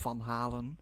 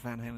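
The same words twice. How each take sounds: First: The name is pronounced the Dutch way. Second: The name is pronounced the English way. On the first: The speaker calls it right. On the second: The speaker calls it wrong. "it's not"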